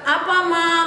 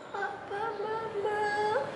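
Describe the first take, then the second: First: It is said gently at a normal volume. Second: It is said very quietly, almost inaudibly.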